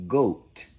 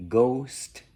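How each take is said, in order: First: "goat", no s before the final t; "goat", long o going straight into t; s left out. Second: "Ghost" with the s sounded before the final t; "Ghost" in full, s and t both heard. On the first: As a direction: say "goat" as ghost with the s dropped. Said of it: "ghost without the s, you get goat". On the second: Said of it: "If you say ghost without the s". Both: Shown as a demonstration.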